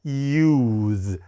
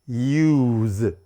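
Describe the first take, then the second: The two takes are said the same way.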